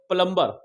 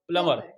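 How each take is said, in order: First: The b sound after m is pronounced. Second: The b sound after m is silent. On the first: The speaker calls it wrong. "नोट प्लम्बर" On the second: The speaker calls it right. "M के बाद जब भी बी आएगा वो silent रहेगा"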